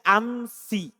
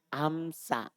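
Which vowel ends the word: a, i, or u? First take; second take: i; a. First: The word ends in an i vowel. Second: The word ends in an a vowel. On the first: This is the Hijazi reading. "kalau orang Hijaz... Dia baca amsi" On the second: This is the Bani Tamim reading in the accusative and genitive. "Dan dia baca fathah amsa"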